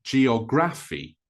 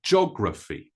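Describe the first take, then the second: First: Geography mispronounced jee-o-GRAF-ee; wrong stress on GRA. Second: Geography as JOG-ruh-fee, stress first; three syllables. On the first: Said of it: "not the gra". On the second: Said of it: "more like three syllables than four syllables". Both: Shown as a demonstration.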